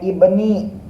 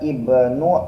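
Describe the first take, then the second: First: The word ends with an 'i' vowel. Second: The word ends with a 'u' vowel. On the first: The speaker calls it right. "Tapi dibacanya ibni" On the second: The speaker calls it wrong. "enggak dibaca ibnu"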